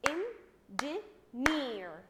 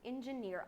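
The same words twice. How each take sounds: First: "engineer" in three loud, slow, separate beats; clapped-out syllables. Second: Said in the usual way. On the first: Shown as a demonstration. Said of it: "Clap with me the word". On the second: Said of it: "I'm going to clap".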